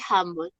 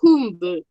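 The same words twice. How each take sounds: First: The first vowel sounds like an 'a'. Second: The first vowel sounds like a Spanish 'u'.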